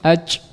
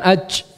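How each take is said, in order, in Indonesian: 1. Konsonan akhirnya kendor dan terlalu banyak hembusan napas. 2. Konsonan akhirnya kendor dan terlalu banyak hembusan napas.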